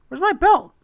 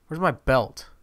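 First: Squeaky, loud question; high-pitched alarm. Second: Said in the usual way. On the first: Real, not acted. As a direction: shoot way up high, demanding the missing belt.

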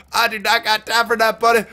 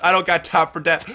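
First: Higher, sassy put-on voice; hammed-up sass; mock sassy. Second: Said in the usual way. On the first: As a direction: toss it off like a sassy brush-off. Repeats line in a put-on voice.

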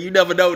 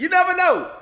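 First: Said in the usual way. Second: Comic high squeal of emphasis; high-pitched repeat. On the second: Real, not acted. YouTuber doubting if the track is AI, high-pitched emphasis. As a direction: jump way up high on NEVER, then drop.

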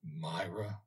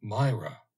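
First: Hushed, almost to himself; soft repetition. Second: Louder, certain, falling "Myra"; name said aloud. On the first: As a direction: breathe the name softly, in wonder. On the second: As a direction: call "Myra" firmly as he recognizes her. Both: A narrator's reading. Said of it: "repeated the old gentleman".

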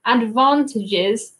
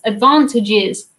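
First: British 'advantages' with a long 'ah'; UK accent. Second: Drawn-out American-sounding 'advantages'; North American accent. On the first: Showing how we would say that in the U K, British accent. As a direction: say advantages the southern English way. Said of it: "is how we would say that in the U K". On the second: Streamer puzzling over the word, slow North American accent. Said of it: "saying that not in my own accent". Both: Shown as a demonstration.

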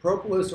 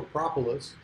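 First: "propolis" with a long "oh" first vowel; long-o pronunciation. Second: "propolis" with an open "ah" first vowel; short-o pronunciation. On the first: Beekeeper offering one of two variants, long-o "propolis". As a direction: say "propolis" as PROH-puh-lis. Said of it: "says propolis". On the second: Beekeeper offering the other variant, short-o "propolis". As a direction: say "propolis" as PRAH-puh-lis. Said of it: "I always taught propolis". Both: Shown as a demonstration.

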